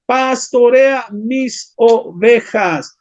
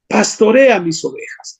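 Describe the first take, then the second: First: "Pastorea mis ovejas" drawn out very slowly, each word weighed; slow solemn command. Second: Said in the usual way. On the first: Acted. Preacher giving Jesus' charge to Peter, very slow and solemn. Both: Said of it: "Jesús le dijo, ¿qué?".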